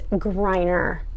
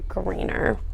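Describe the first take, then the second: First: The first syllable sounds like 'grine'. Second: The first syllable sounds like 'green'. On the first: The speaker calls it right. "It's this. It's Griner" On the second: The speaker calls it wrong. "they mispronounced my last name. It's not [name] Greener"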